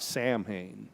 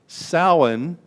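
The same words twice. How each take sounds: First: It is pronounced letter by letter, as spelled. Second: It is pronounced the way it is in Ireland. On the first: "It's not pronounced like it looks, not Samhain" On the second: "is pronounced Samhain in Ireland"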